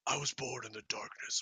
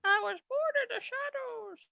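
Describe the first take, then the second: First: Bane voice. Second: Very high baby-voiced villain line; baby Bane voice. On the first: Acted. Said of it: "can you use a Bane voice". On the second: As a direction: say it like a tiny menacing baby. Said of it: "Bane in a baby Alden's voice".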